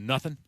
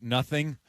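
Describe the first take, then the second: First: The word ends with a plain 'n' sound. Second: The word ends with a full 'ng' sound. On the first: The speaker calls it wrong. "as opposed to nothing. ... we get lazy in Southern Illinois" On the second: The speaker calls it right. "I started keeping G's on the end of words like nothing"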